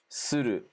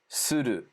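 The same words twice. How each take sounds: Both takes have the same delivery.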